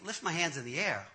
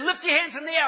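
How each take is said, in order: First: Low, soft, doubtful repeat; puzzled inner echo. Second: High, loud revival order; imitated preacher command. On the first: Retold or imitated. Reluctant man to himself before prayer, quietly puzzled. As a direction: think it aloud in disbelief. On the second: Pastor ordering man to prepare for prayer, loud command.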